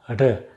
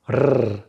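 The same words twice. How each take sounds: First: The r is a light, brief trill. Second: The r is a strong, long trill. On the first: "light trill like r" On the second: "The trill is a vibration when you do r"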